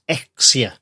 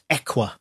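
First: The middle has a clear ks sound. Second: The middle has no s sound. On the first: The speaker calls it wrong. "I would have thought it was pronounced Exia" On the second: The speaker calls it right. "it's pronounced Equa... So the S is silent"

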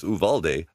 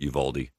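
First: The name is said with a Spanish pronunciation. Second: The name is said with a Texan English pronunciation. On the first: This is how Spanish speakers say it. "If you're a Spanish speaker, it's Uvalde" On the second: This is how people in Texas say it. "In Texas, I've always heard it Uvalde"

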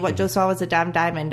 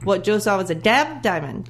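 First: The pitch stays level on 'damn'. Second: The pitch goes up on 'damn'. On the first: The speaker calls it right. "if I was saying that sentence, I'd say" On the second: The speaker calls it wrong. "I wouldn't say"

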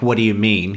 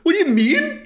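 First: It is said in a normal, lower pitch. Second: It is said in a raised, high pitch.

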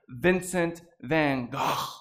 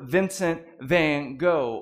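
First: The name is said the Dutch way. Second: The name is said the English way.

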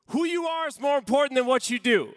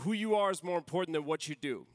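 First: It is said louder, with the volume turned up. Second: It is said at a normal speaking volume.

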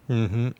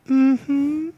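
First: It sounds plain and neutral. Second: It sounds soft and vulnerable.

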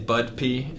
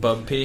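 First: The first syllable ends with a d sound. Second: The first syllable ends with a b sound. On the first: The speaker calls it wrong. "Kevin normally likes to say Bud-pee" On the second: The speaker calls it right. "instead of Bub-pee"

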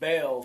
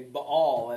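First: The name is said the usual English way. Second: The name is said the way Hebrew says it. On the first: "instead of saying Baal" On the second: "as a Hebrew would say"

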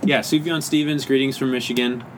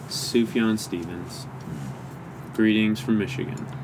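First: It is said in a plain, cheerful tone. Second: It is said in a sad, gloomy tone. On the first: The speaker calls it right. "Just kidding" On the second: The speaker calls it wrong. "I just made it a sad one"

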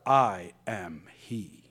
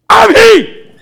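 First: It is said quietly, without shouting. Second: It is shouted loudly.

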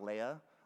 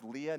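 First: The name is said like the Star Wars name. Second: The name is not said like the Star Wars name. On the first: The speaker calls it wrong. "not Leah, like in Star Wars" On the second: The speaker calls it right. "it's pronounced Leah"

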